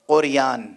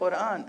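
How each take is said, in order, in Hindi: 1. यह शब्द 'र' के बाद 'y' की आवाज़ के साथ बोला जाता है। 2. यह शब्द 'र' के बाद 'y' की आवाज़ के बिना बोला जाता है। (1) "कुरान नहीं कह पाए वो, कुरियान" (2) "लफ्ज़ कुरान"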